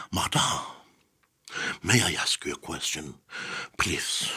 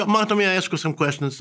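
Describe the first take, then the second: First: Overly formal journalist, very hushed and measured; stiff journalist formality. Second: Light, higher-pitched casual ask; relaxed friendly request. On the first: Formal journalist approaching an interviewee, stiff and hushed. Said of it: "people don't talk like that". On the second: Interviewer to an interviewee already laughing, friendly and casual. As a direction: slip the request in easily, high and chatty. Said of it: "you start laughing with the jokes". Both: Shown as a demonstration.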